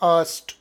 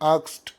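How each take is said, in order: First: The word ends in an s, t sound. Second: The word ends in a k, s, t sound. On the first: "ಇದು ಸರಿ ಇದೆ" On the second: "ಕೆಲವರೆಲ್ಲ ಆಕ್ಸ್ಟ್ ಹೇಳ್ತಾರೆ"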